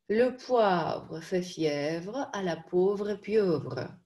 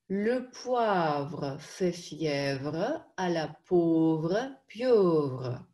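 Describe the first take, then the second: First: It is spoken as a whole at faster speed. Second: It is spoken as a whole but slowly. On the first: "Побыстрее" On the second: "Теперь медленно"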